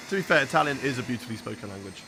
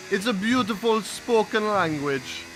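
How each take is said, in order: First: Said in the usual way. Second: Slow mock Italian accent; lightly held Italian accent. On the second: Streamer praising Italian in a put-on Italian accent. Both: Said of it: "put on the accent".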